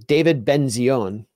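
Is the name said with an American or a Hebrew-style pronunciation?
Hebrew-style. The name is said with a Hebrew-style pronunciation.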